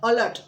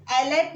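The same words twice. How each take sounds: First: अलर्ट with a clear short "a" opening, "a-lert"; correct pronunciation. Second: अलर्ट clipped to "lert", first vowel dropped; wrong pronunciation. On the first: Teacher modelling the right way to say अलर्ट. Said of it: "हम बोलते हैं अलर्ट". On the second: Teacher showing pupils the wrong way to say अलर्ट. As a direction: say अलर्ट the wrong way, skipping the opening "a". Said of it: "अलर्ट नहीं बोलते". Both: Shown as a demonstration.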